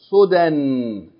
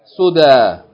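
First: The word ends with an n sound. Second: The word ends in a long vowel, no n. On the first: The reader keeps reading past the word. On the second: The reader stops on the word.

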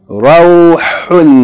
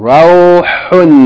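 Both takes have the same delivery.

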